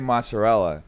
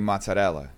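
First: The word is said with an American pronunciation. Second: The word is said with an Italian-style pronunciation. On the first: This is how most people say it. "that's how people say it" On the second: The speakers still hold on to their heritage. "They pronounce it like they're still Italian"

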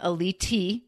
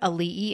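First: The name is said with a t sound inside. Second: The name is said without a t sound. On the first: The speaker calls it wrong. "He puts a T in there" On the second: The speaker calls it right. "a little boy with a Hawaiian name"

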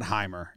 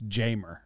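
First: The name starts with an H sound. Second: The name starts with a J sound. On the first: The speaker calls it wrong. "It's not Heimer" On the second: The speaker calls it right. "It's Jamer"

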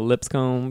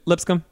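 First: It is said with a Southern drawl. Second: It is said plainly, without a drawl.

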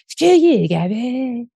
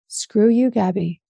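First: It is said in a Cartman impression voice. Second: It is said in her own normal voice.

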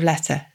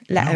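First: The t is clearly pronounced. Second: The t is replaced by a throat catch. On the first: "instead of letter?" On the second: "how would you say that with a northern accent?"

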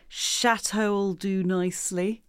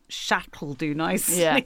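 First: Chateau and will are said as separate full words. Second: Chateau and will blend into one short chunk.

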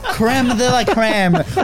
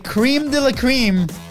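First: It is said with a French accent. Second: It is said with an English accent. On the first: The speaker calls it right. "We do the French accent" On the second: The speaker calls it wrong. "Did I say that right? Probably not"

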